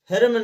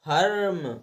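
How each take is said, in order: First: The first vowel is a short 'i' sound. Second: The first vowel is an 'er' sound. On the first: The speaker calls it wrong. "फिल्म ना पढ़ करके" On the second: The speaker calls it right. "इसलिए हम इसको फर्म पढ़ेंगे"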